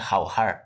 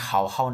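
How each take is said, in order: First: The word ends with an added r sound. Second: The word ends without any r sound. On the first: "বলছে হাও হার, এটাকে বলে আর হোয়াইন" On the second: "হাও হাও না বলে"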